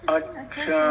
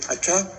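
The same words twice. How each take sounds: First: It sounds thoughtful and drawn out. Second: It sounds surprised and shocked.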